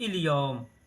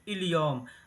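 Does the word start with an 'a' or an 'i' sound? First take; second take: i; i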